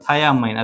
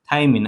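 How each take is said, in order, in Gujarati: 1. તે ત્રણ ભાગમાં બોલાય છે, 'thiamine' જેવું. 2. તે બે ભાગમાં બોલાય છે, 'thymine' જેવું. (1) "આને તમે આમ તમે થાયામાઇની વાંચી શકો" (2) "આપણે જનરલી વાંચતા હોય થાઇમિન"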